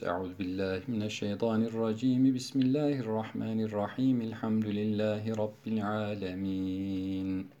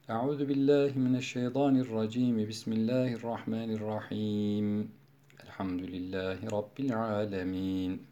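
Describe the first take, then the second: First: All three phrases run together without any pause. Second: There is a pause after the second phrase only. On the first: "Dördüncü vecih vaslül kül, hepsinde geçiş yapıyoruz" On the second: "Sure başında vaslul evvel kat'ul sani"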